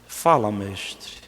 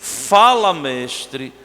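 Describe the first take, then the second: First: It sounds suspicious and distrustful. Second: It sounds open, warm and happy. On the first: The speaker doubts the one addressed. The speaker calls it wrong. "com o coração cheio de desconfiança, como o fariseu" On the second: The speaker truly wants to listen and follow. The speaker calls it right. "com o coração todo despojado, aberto, feliz"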